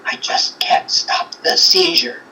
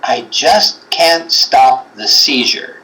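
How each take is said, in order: First: Whispered, softer and a bit slow; imitating a whispery, hollow spirit voice. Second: Slow imitation. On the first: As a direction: breathe it out like a hollow ghostly voice. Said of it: "like a whisperiness, but, like, it was, like, hollow". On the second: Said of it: "And then the voice goes".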